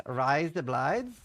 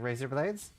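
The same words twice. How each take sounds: First: "rise the blides" in a slow Australian accent, razor as "rise" and blades as "blides". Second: Said in the usual way. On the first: Shown as a demonstration. Demonstrating how an Australian says "rise the blides". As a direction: say "rise the blides" the Aussie way, slowly. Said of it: "sounds a bit like rise up lights". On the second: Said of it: "sounds like razor blades".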